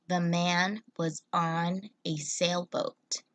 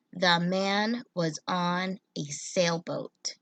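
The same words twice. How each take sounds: First: Slow, even second reading of the sentence; slow repeat. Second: Put-on slow, clear sentence reading for children; slow read-aloud. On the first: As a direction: repeat it slowly and clearly. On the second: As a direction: read it slowly for young readers. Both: Shown as a demonstration. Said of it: "this sentence says".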